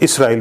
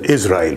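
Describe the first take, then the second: First: The middle consonant is an S sound. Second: The middle consonant is a Z sound. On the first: This is the pronunciation used in the Quran. The speaker calls it right. "he should be pronounced as Israel with Sin, with S, not with Z" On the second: This is the usual English pronunciation. The speaker calls it wrong. "it's pronounced in English as Israel with a Z sound"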